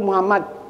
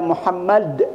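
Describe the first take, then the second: First: It is rushed and the final d is swallowed. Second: The final d sound is clearly released. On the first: The speaker calls it wrong. "karena buru-buru Muhammad nah, tanpa kolah-kolahnya" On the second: The speaker calls it right. "harus dalnya harus jelas"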